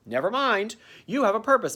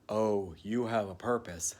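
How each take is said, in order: First: Lightly voiced little girl cherub; a hint of a sweet child angel. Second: Soft, hushed whisper; awed whisper. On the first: Cherub Tilly telling Nestor his purpose, lightly girlish. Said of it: "she sounds like a little girl". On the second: Retold or imitated. Cherub in golden light whispering his purpose. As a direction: breathe it like a holy secret.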